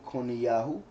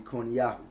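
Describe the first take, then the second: First: It has an extra 'i' sound after 'Kon'. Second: It has no 'i' sound after 'Kon'. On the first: The speaker calls it wrong. "there's an I" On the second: The speaker calls it right. "the correct pronunciation would be Konyahu"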